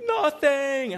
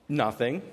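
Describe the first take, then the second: First: Put-on high, louder toddler "Nothing."; little girl denying. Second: Said in the usual way. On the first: Daughter denying she ate anything, high childish voice. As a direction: squeak out a childish denial. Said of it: "And she was like". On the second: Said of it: "she finishes chewing, swallows".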